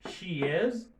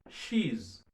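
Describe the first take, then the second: First: Both words are said fully and separately. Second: The two words merge into one syllable.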